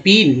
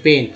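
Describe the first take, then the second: First: "पीन" with a long ee, as a misreading of pen; wrong E sound. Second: "पेन" with an eh vowel, not ee; correct E sound. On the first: Teacher showing students the mistake, pen said as "पीन" with long ee. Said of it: "पेन में क्या बोल रहे हैं". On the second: Teacher correcting the misreading, "पेन" said with an eh vowel. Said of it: "ए बोल रहे हैं". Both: Shown as a demonstration.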